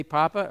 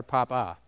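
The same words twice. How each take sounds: First: "papa" with an unstressed uh at the end. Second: "papa" with a full open ah on the second syllable; "papa" ending in ah. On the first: Quizzing the audience on how they say it, "papa" ending in uh. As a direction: say "papa" with the second A as a short uh. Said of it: "If you said papa, you pronounce that second A". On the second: Quizzing the audience on the alternative, "papa" with ah twice. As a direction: say both A's in "papa" as ah. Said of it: "have to be pronounced as an ah". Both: Shown as a demonstration.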